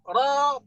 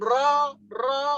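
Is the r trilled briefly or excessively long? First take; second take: briefly; excessively. First: The r has one short, gentle trill. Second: The r is trilled long and heavily. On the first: The speaker calls it right. "Satu getaran lembut" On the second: The speaker calls it wrong. "itu terlalu berlebihan"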